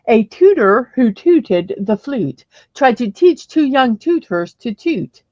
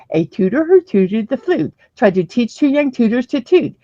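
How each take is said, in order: First: It is said at a slower pace. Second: It is said at a faster pace.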